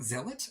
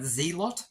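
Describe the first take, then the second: First: The first syllable has a short 'zel' vowel. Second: The first syllable has a long 'zee' vowel. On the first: The speaker calls it right. "apparently it's Zealot" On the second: The speaker calls it wrong. "To me, you pronounce that Z-lot"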